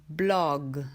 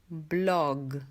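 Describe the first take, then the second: Both takes have the same delivery.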